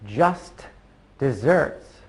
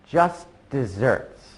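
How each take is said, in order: First: The words are said with a stop between them. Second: The words are run together without a stop. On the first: The speaker calls it wrong. "instead of" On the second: The speaker calls it right. "without stopping so much"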